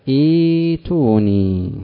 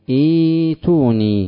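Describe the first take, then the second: No difference in how they are said.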